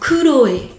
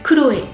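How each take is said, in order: First: The name is said slowly, syllables pulled apart. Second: The name is said quickly, syllables run together. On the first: Each syllable can be heard separately. "Pour les gens qui décortiquent un petit peu" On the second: It sounds close to the French name. "si on le prononce vite"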